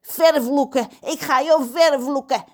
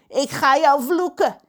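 First: "vervloeken" said in full, corrected; pirate repeats with "vervloeken" properly; corrected threat. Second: "vloeken" said wrongly instead of vervloeken; pirate threatens with the wrong word "vloeken"; misspoken threat. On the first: Pirate Pedro corrects himself and curses the cook. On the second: Pirate Pedro threatens the cook, mixing up "vloeken". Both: Acted. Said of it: "Nederlands is moeilijk".

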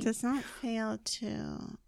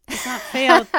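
First: NOT drawn out slowly; puzzling over the phrase slowly; slow, stress on NOT. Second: FAIL punched loud; stress on FAIL. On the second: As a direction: hit the word fail. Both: Shown as a demonstration. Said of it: "is that how you say it?".

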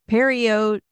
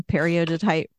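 First: "periodotite" broken into parts, higher; careful sounding-out. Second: Said in the usual way. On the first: Real, not acted. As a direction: sound out "periodotite" with a pause midway. Retries hard word, sounding it out.

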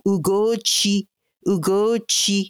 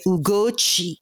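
First: Ugochi slow and lilting, syllables held; song-like. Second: Ugochi with the final chi dropping down; family's falling tune. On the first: Shown as a demonstration. Guest showing the general authentic name, Ugochi lilted like a song. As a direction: stretch Ugochi out like a short tune. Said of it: "is like a song". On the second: Retold or imitated. Guest quoting her family, Ugochi with chi coming down. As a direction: let the chi fall at the end of Ugochi. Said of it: "So that chi comes down".

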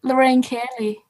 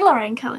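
First: Put-on unconvincing Scottish accent; attempted Scottish accent. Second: Said in the usual way. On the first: Copying contestant's accent trick, badly faked Scottish accent. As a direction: have a poor go at Scottish. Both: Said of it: "I can't say Lorraine Kelly in a Scottish accent".

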